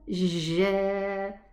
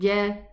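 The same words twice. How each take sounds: First: The j is made with the tongue tip. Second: The j is made with the middle of the tongue. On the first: The speaker calls it wrong. "So it doesn't sound ja. I pronounce ja from the very front part of the tongue" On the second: The speaker calls it right. "Get the get the jim from the middle part of the tongue"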